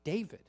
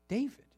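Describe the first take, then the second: First: Said in the usual way. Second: David lifted much higher, ringing; David, the climax of the point; emphatic reveal. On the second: Shown as a demonstration. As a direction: repeat David with a bright emphatic lift. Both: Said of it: "and that is".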